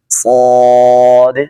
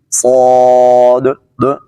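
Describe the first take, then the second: First: The final d gets only a light echo. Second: The final d gets a strong added echo. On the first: The speaker calls it right. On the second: The speaker calls it wrong.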